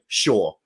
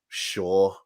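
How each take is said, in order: First: It is said plainly and neutrally. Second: It is said in a passive-aggressive tone. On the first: It simply means yes. "saying like yes is just going sure" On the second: It implies grudging or annoyed agreement. "a really passive aggressive sure"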